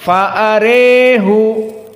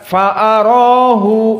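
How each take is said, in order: First: The vowel after r leans strongly toward e. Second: The vowel after r is an open a. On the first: This is the reading of one particular reciter. "Al-Kisai akan dibaca dengan Al-Imalah Al-Kubra" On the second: This is the majority reading. "Jika jumhur akan dibaca"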